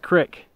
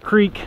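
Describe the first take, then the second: First: It is said with a short i vowel. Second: It is said with a long ee vowel.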